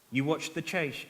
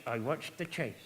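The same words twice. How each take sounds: First: Said in the usual way. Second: "chase" said as chaish, lower and softer; slushy s. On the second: Acted. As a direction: slur the s of "chase" into sh. Puppet answers with slushy s.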